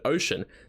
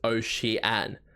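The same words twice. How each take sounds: First: The vowels flow together in a normal English way. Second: Each vowel is pronounced separately on its own. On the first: "the English word ocean" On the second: "every vowel is pronounced on its own"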